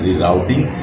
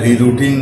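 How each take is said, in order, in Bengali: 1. শব্দটি আমেরিকান উচ্চারণে বলা হয়েছে। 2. শব্দটি নন-আমেরিকান উচ্চারণে বলা হয়েছে।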